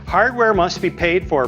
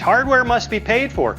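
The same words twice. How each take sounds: First: It is read in a plain, neutral tone. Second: It is said in a mocking, sarcastic tone. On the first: The letter's words are simply quoted. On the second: The writer means the opposite of what he says.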